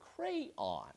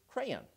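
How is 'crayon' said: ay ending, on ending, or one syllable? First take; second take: on ending; ay ending. First: Two syllables, the second rhyming with 'dawn'. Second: Two syllables, the second with an 'ay' sound. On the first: "two-syllable word pronounced on, so that it rhymes with dawn" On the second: "two-syllable word in which the second syllable is pronounced with a soft A sound"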